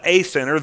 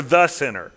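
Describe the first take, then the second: First: Said in the usual way. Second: "the" stressed, full vowel, falling. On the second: Shown as a demonstration. Preacher correcting "a" sinner to "the", stressed. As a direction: lean on "the", not "a". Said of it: "Not a sinner".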